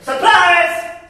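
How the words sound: It is said in a shrill, high pitch.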